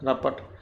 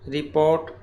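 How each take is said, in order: First: The word is shortened and said as 'rapat'. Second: The word is said in full as 'report'. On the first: The speaker calls it wrong. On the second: The speaker calls it right.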